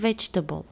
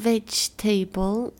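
First: The ending is reduced, not like the word table. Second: The ending sounds like the full word table. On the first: The speaker calls it right. "it is vegetable" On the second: The speaker calls it wrong. "Not vegetable"

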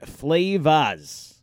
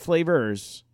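First: It is said in a Maine accent, dropping the r. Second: It is said in a standard accent, with the r. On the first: The speaker calls it right. "This is from Maine, folks" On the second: The speaker calls it wrong. "Not flavors"

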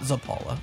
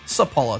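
First: The name begins with a Z sound. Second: The name begins with an S sound. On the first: The speaker calls it wrong. "not Zapala" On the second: The speaker calls it right. "the Z in your first name that just had to enunciate the Z in the second name"

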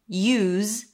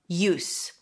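First: The word ends in a Z sound. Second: The word ends in an S sound. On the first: It is a verb: to employ something. "to use, then it's spelled with the Z sound" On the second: It is a noun: purpose or benefit. "or it's the noun"

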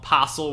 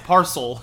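First: The word is said without an R sound. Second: The word is said with an R sound. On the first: The speaker calls it wrong. "possel without the R" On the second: The speaker calls it right. "There's an R in there"

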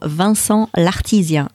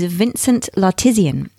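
First: The name is said with a French accent. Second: The name is said without a French accent.

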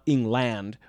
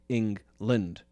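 First: The last syllable has a full "land" vowel. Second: The last syllable has a reduced schwa vowel. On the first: The speaker calls it wrong. "It's not England" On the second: The speaker calls it right. "we say England"

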